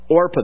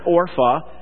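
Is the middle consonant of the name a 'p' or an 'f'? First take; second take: p; f. First: The name is said with a 'p' sound. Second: The name is said with an 'f' sound. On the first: The speaker calls it right. "But your King James Bible says Orpah" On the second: The speaker calls it wrong. "And not Orpha. I hear people pronounce that Orpha"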